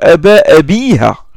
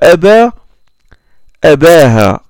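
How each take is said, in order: First: The vowel before the final ha is i. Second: The vowel before the final ha is a. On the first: This follows the standard grammar rules. "Normalement, il doit prononcer" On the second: This is how one tribe's dialect says it. "Mais lui, il a dit"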